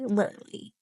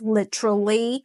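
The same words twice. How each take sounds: First: The T sound is dropped, said quickly. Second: The T is pronounced as a clear T. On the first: "in faster speech, you sometimes don't even hear the T or the duh anymore" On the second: "in British or Aussie English it's pronounced literally"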